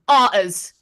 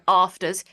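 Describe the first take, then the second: First: The f sound in the middle is dropped. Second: The f sound in the middle is pronounced. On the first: "he goes arters... just forgets the F" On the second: "or you know afters"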